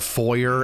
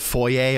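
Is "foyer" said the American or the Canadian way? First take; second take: American; Canadian. First: The word is said the American way. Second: The word is said the Canadian way. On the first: "if you're from a certain part of America, you probably call it a foyer" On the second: "I've been calling this a foyer"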